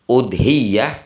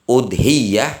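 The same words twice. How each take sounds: First: The 'y' sound is held long and doubled. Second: The same.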